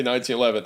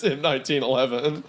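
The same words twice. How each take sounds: First: Said in the usual way. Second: "M nineteen eleven" with the letter M said first. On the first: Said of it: "They just say". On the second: Shown as a demonstration. Quoting how Call of Duty names the gun, with the M. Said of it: "where it says".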